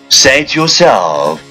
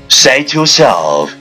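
No difference in how they are said.

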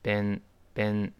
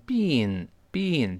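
First: The vowel is a short eh sound. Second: The vowel is a long ee sound. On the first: The speaker calls it right. "它是ben，你记住发a，再走鼻音" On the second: The speaker calls it wrong. "不要读成been 这个不对"

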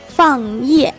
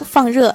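First: It is said with a strong regional accent. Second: It is said in standard Mandarin. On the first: The speaker calls it wrong. "我们化学老师就属于那种有口音的人" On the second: The speaker calls it right. "其实这3 个词分别是燃烧、放热"

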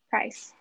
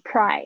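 First: The final s sound is clearly pronounced. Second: The final s sound is left off. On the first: The speaker calls it right. "所以注意一下" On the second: The speaker calls it wrong. "有时候你会念pry，然后那个s 就没有发出来"

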